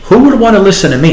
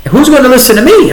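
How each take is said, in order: First: Raised, fast and disbelieving, almost laughing; retelling a doubting inner thought, half laughing; incredulous self-doubt. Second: Much higher and louder, fast, exclaiming in disbelief; replaying the doubt about going on air, now exclaimed; incredulous self-doubt. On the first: Retold or imitated. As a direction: ask it as if the idea is absurd. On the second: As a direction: throw the question up like it's ridiculous. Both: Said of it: "I thought to myself".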